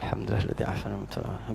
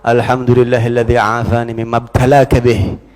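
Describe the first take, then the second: First: The prayer is said quietly, under the breath. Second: The prayer is said loudly and audibly. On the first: It is kept from the afflicted person to avoid offense. "Jadi kalau musibah dunia bacanya pelan" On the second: It is meant to be heard as a rebuke. "kencengin kalau perlu biar dia denger"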